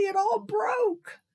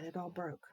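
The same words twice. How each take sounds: First: High, slow, sobbing wail; crying child. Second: Said in the usual way. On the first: Acted. Nancy tearfully telling Daddy the cake broke, high slow sob. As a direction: wail it slowly through tears.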